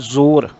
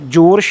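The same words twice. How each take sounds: First: The word begins with a z sound. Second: The word begins with a j sound. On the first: The speaker calls it right. "ਇੱਥੇ ਬਿੰਦੀ ਲੱਗ ਕੇ ਉਚਾਰਨ ਹੋਏਗਾ" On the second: The speaker calls it wrong. "ਜ਼ੋਰ ਸ਼ਬਦ ਨਹੀਂ"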